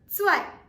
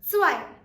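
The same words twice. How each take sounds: First: It begins with a clear ts sound. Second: It begins with a clear ts sound.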